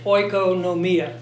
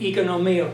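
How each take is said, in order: First: It uses the academic classroom Greek pronunciation. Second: It uses the modern Greek pronunciation. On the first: The speaker calls it wrong. "That would be the Bible school pronunciation" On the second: The speaker calls it right. "Modern Greek"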